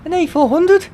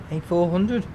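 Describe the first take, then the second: First: High, loud, thrilled cry of the plane's name; spotting the plane overhead, a thrilled high cry; excited shout. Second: Said in the usual way. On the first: Real, not acted. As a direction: shout it up high in real delight. Plane flies over, thrilled reaction.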